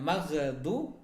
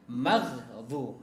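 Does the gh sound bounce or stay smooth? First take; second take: bounce; smooth. First: The gh sound bounces with a small echo. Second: The gh sound stays smooth without bouncing. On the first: The speaker calls it wrong. "bukan maghdu" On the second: The speaker calls it right. "tapi maghdu ya"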